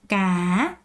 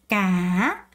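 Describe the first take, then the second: First: The pitch dips then rises at the end. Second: The pitch dips then rises at the end.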